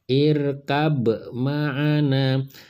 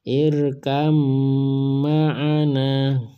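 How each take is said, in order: First: The b sound is pronounced separately before ma'ana. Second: The b sound merges into a doubled m sound. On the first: The speaker calls it wrong. "bukan irkab ma'ana" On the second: The speaker calls it right. "harus dibaca begini"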